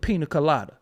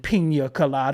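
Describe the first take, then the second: First: The n in pina is a plain n. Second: The n in pina is a 'ny' sound. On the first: It is the everyday way to order it. "I say" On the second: It sounds fancy and pretentious. "I don't say"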